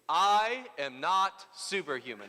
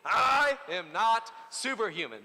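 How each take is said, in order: First: It is said plainly, without much force. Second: It is said forcefully, with strong conviction.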